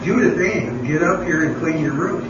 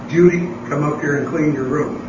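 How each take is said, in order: First: Mild mock call with the full name. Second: A retold call up the stairs, a bit louder; mild mock call to a daughter; calling upstairs. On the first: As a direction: use the full name, the mom is losing patience. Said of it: "Third time she said". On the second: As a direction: call the child, first time, mildly raised. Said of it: "yelled downstairs".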